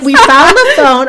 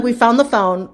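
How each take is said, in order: First: Louder, triumphant "We found the phone"; excited announcement. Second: Said in the usual way. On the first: Retold or imitated. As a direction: burst in proudly with the news. Announcing the find to security.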